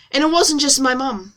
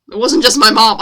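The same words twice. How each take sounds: First: Said in the usual way. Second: "mom" said louder with an open American "ah". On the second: Acted. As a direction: correct it to a punched American "mom".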